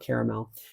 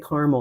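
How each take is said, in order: First: It is said with a non-Midwestern pronunciation. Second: It is said with a Midwestern pronunciation. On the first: This is how some others say it. "some of you say caramel" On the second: This is how the speaker normally says it. "I'm a Midwesterner and I say caramels"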